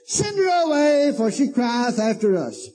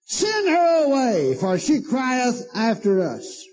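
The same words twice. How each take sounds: First: High, slow, bold demand; boldly. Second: High, slow commanding demand; bossy disciples. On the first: Disciples boldly demanding Jesus send her away, high. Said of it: "I mean, just boldly". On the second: Disciples telling Jesus to send the woman away, high and slow. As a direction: order it high and slow, brushing her off. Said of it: "besought him, saying". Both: Retold or imitated.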